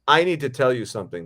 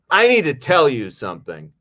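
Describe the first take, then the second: First: It is said plainly, without signaled emotion. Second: It is said with exaggerated, signaled emotion. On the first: "if the line is like" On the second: "indicating. Don't indicate"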